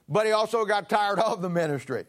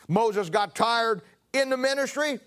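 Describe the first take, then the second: First: "also" and "of" pressed to contrast with "in"; preacher pointing out "of"; stress on OF. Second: "in" leaned on, slow; preacher slowly stressing "in". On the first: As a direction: hit "also" and "of" in "got tired of the ministry". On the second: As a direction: lean on the word "in" in "tired in the ministry". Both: Shown as a demonstration.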